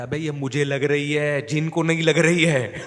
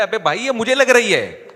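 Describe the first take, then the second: First: Slow, pained plea half laughing; pleading beaten man. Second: High, loud pained cry; yelping beaten man. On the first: Fake possessed man begging teacher to stop, slow pained whine. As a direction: drag it out like it really hurts. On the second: Fake possessed man crying out under blows, high loud yelp. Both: Retold or imitated.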